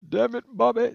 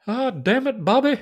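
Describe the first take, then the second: First: Exasperated Texan groan; Hank Hill impression. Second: Exasperated Texan drawl; a light Hank Hill voice; Hank Hill impression. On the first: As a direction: put on a Texan dad voice.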